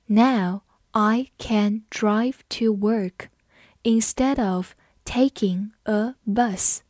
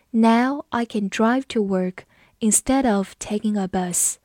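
First: Slow and measured, separating the words; slow read-along. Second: Said in the usual way. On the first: Shown as a demonstration. Teacher modelling the bus sentence for students, slowly. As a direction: give learners time on every word. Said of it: "好，我们慢读一遍".

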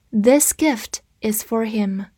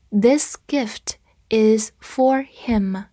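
First: Said in the usual way. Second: This gift is for him whispered slowly; slow whispered reading. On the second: Shown as a demonstration. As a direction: breathe it out slowly, word by word. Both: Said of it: "我们再读一遍".

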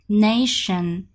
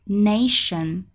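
The two takes are said the same way.

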